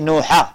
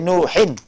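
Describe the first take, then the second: First: The word ends with an 'a' sound. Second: The word ends with an 'in' sound. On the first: The speaker calls it wrong. "Don't say Nuha" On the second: The speaker calls it right. "That's why we say Nuhin"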